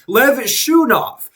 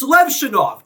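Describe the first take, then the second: First: The middle syllable sounds like the word 'shoe'. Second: The middle syllable does not sound like 'shoe'. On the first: This is how the broadcasters said the name. The speaker calls it wrong. "They kept calling him Lev Shunov, like he's a shoe" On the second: This is the player's actual name. The speaker calls it right. "It's Levshunov"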